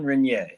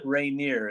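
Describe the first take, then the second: First: The name is said with a French pronunciation. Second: The name is said with an English pronunciation. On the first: The speaker calls it right. "the French would say Renier" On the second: The speaker calls it wrong. "not Rainier as I call him"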